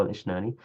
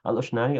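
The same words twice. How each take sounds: First: الإشناني opening with a short i; kasra on hamza. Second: الأشناني opening with a short u; damma on hamza. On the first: Teacher reading the second variant, i on the hamza of الإشناني. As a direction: say الإشناني as al-ishnani. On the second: Teacher reading the first variant, u on the hamza of الأشناني. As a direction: say الأشناني as al-ushnani. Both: Shown as a demonstration. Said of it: "بضم الهمزة وكسرها".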